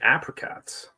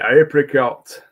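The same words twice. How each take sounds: First: It is said the American way, starting like 'app'. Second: It is said the English way, starting like 'ape'.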